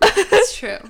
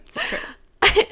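First: Giggly high admission; laughing agreement. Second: Giggly, a little quieter; softer laughing repeat. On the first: [name] laughing, admitting she's a bookworm. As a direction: laugh it out, conceding. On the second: [name] repeating her laughing admission. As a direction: concede it again, fading. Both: Real, not acted.

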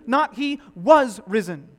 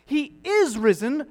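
First: Said in the usual way. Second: "is" stretched slow and lifted, louder; stress on is. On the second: Shown as a demonstration. Preacher correcting the tense, stress on "is". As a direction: lean hard on "is" in "He is risen".

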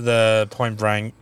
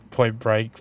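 First: "Point Break" fumbled, "Break" slurred to "Brang"; stumbled name. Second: Said in the usual way. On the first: Real, not acted. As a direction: trip over "Point Break", saying "Brang" instead of "Break". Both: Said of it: "I couldn't say Point Break just then".

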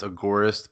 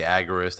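First: "agorist" as uh-GOR-ist; usual pronunciation. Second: "agorist" as AG-er-ist; alternative pronunciation. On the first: Guest giving his own pronunciation, "agorist" as uh-GOR-ist. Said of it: "I usually pronounce agorist". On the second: Guest quoting how others say it, "agorist" as AG-er-ist. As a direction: put the stress on the opening AG of "agorist". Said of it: "some people say agorist". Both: Shown as a demonstration.

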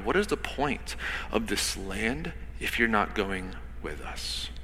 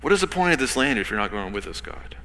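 First: Soft, drawn out. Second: Said in the usual way. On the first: Shown as a demonstration. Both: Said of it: "let that sit for a minute".

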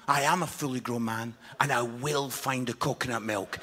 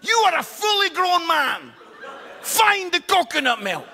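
First: Mock dignified reply. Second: High, loud furious shout down the phone; angry wife yelling. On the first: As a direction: put on a hammed-up grown-man gravity. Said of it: "I says". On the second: Retold or imitated. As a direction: bark it at him like an exasperated wife.

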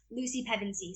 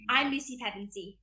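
First: Said in the usual way. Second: Mimicked British accent of a Narnia heroine. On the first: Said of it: "I love mimicking". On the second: Shown as a demonstration. Young actor mimicking a favorite film character, British accent. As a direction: introduce yourself in a British accent. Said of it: "and then British accent".

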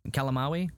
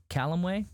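First: "Calamawy" ending in "ah-wee", as a question; second pronunciation attempt. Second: "Calamawy" ending in "way", as a question; tentative pronunciation. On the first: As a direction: try "Calamawy" as cal-a-MAH-wee, questioning. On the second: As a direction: try "Calamawy" as CAL-um-way, rising and unsure. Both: Shown as a demonstration. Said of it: "It's gotta be pronounced differently".

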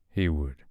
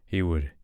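No difference in how they are said.

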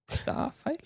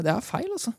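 First: Whispered aside, higher and much softer. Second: Said in the usual way. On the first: Acted. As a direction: breathe the words out unvoiced. Repeats the phrase, whispered.

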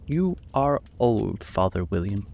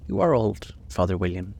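First: Slow, drawn-out caterpillar; a lightly voiced lazy caterpillar. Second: Reciting. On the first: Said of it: "said the caterpillar". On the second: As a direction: recite it like a schoolgirl. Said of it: "Alice folded her hands and began". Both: A narrator's reading.

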